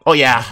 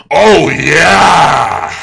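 First: Said in the usual way. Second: Loud, drawn-out victory holler; triumphant bellow. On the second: Real, not acted. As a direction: let it rip and hold the note. Celebration builds to a bellow.

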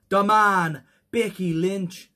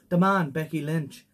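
First: Badly faked Irish accent. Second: Toned-down attempt at an Irish accent; better Irish accent. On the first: Host introducing an Irish wrestler, bad Irish accent. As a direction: put on a terrible Irish accent, stretching it out. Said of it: "That was the worst Irish accent". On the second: Host retrying the wrestler's nickname, better Irish accent. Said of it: "I can do a much better one".

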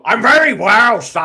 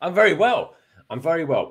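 First: Put-on loud, high barked Irish accent; barking Irish accent. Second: Mild attempt at an Irish accent. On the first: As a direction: bark it out in a hammed-up Irish accent. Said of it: "some sort of barking Irish accent". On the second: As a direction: try out an Irish accent, held back. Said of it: "trying to do some sort of barking Irish accent".

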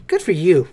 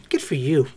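First: Said in the usual way. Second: Good for you, dropped low and quiet; a deflated low repeat; low soft aside. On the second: Real, not acted. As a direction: mumble it under the breath. Second take dropped low.

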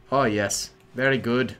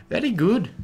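First: Put-on Russian accent drifting a little Irish; botched Russian accent with an Irish lilt; measured mock Russian turning slightly Irish; accent slipping Irish. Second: High, lilting Irish-tinged accent; exaggerated Irish lilt; mock Irish accent. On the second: Shown as a demonstration. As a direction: mimic a slip into Irish, pitched up. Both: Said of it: "I went a little Irish there".

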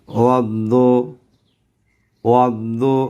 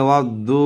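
First: ওয়াদ্দু with a short দু, no drawn-out vowel; short recitation. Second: ওয়াদ্দু with the final দু held long; held vowel. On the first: Teacher shows students how he reads ওয়াদ্দু, short. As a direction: say ওয়াদ্দু crisply, no lengthening. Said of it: "দেখেন আমি কিভাবে পড়ি". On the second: Teacher demonstrates the wrong, lengthened ওয়াদ্দু. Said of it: "এইভাবে ধরে রাখি". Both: Shown as a demonstration.

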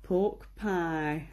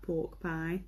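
First: Said in the usual way. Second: "pork pie" said slowly in a light northern English accent; a slow, lightly done northern English accent on "pork pie". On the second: Shown as a demonstration. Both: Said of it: "you have to say pork pie in, like, a northern accent".

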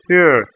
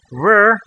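First: "er" as rounded Russian ё, tongue tip down. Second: Said in the usual way. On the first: Shown as a demonstration. Teacher drilling learners on ё, tongue tip down. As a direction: say "er" with mid-tongue up and tip lowered. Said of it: "tip of your tongue might be down". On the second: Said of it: "the English word were".

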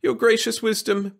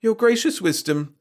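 First: High, pleading address; begging. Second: High, hesitant address; faltering. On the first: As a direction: beg the king for mercy. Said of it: "begged Wirt". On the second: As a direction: falter before the king. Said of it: "faltered Wirt". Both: A narrator's reading.

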